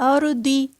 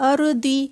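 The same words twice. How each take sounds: Both takes have the same delivery.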